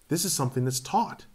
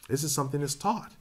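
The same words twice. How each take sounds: The two takes are said the same way.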